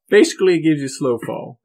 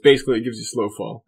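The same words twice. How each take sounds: First: The words are said in a put-on character voice. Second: The words are said in a natural speaking voice. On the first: The character is speaking. The speaker calls it wrong. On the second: The player is speaking out of character. The speaker calls it right.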